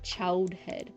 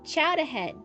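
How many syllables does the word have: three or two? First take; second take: two; three. First: The word is clipped to two syllables. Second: The word is said with three syllables. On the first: The speaker calls it wrong. "it's not Chowdhead. That almost sounds like like some weird German Russian" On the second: The speaker calls it right. "It's Chowderhead"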